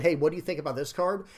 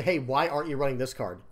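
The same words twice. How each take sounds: First: Friendly ask. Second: Confrontational ask. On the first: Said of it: "it would be better if people said". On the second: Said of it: "instead of making it confrontational". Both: Shown as a demonstration.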